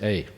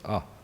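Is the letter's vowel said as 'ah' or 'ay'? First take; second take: ay; ah. First: The letter is said with an 'ay' vowel. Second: The letter is said with an 'ah' vowel. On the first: "in Australia we say A" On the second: "in India they say Ah"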